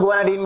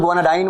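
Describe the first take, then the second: First: Guanidine ending in "-deen", long ee. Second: Guanidine ending in "-dine", like English "dine". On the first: Teacher showing students how some people say it, guanidine with "-deen". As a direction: say guanidine to rhyme with "seen". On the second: Teacher showing students the version to avoid, guanidine with "-dine". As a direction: say guanidine to rhyme with "nine". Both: Shown as a demonstration. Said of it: "तो डाइन मत बोलना".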